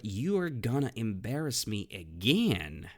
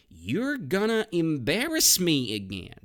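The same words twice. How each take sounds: First: Said in the usual way. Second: Exasperated complaint. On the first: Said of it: "So, but". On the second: Shown as a demonstration. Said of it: "The next phrase is".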